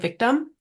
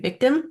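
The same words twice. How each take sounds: First: The second vowel sounds like a reduced 'uh'. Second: The second vowel sounds like a clear 'i'. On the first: "it sounds like it's a U" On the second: "it should be victim, and it is an I"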